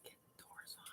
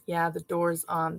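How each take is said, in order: First: Soft unvoiced whisper on "doors". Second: Said in the usual way. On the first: Real, not acted. Whispering an aside to her helper, hushed. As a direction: breathe the words with no voice.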